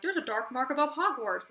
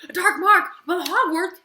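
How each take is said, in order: First: Said in the usual way. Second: Higher, louder shocked question; as if you can't believe it; shocked disbelief. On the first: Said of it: "they're like". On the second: Retold or imitated. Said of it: "And I was like".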